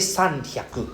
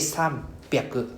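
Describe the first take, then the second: First: The second part starts with an h sound. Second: The second part starts with a b sound. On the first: The speaker calls it wrong. "we don't say sanhyaku" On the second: The speaker calls it right. "we say sanbyaku"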